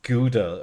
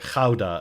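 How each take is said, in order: First: It is said with a common English pronunciation. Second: It is said with the native local pronunciation.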